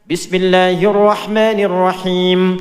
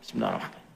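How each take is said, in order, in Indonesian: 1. Frasa itu diucapkan dengan lantang, jelas dan keras. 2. Frasa itu diucapkan pelan, hampir tanpa suara.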